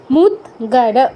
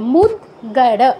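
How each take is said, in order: No difference in how they are said.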